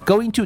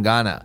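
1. 两个词都完整地说出来。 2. 这两个词合并成一个简略的形式。

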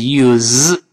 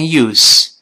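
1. 这个词结尾是浊辅音z。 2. 这个词结尾是清辅音s。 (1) "动词是use，是z，这是个浊辅音" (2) "名词读成use"

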